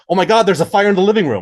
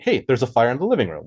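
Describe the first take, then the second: First: It sounds alarmed and urgent, like an emergency. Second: It sounds relaxed and cozy, not urgent.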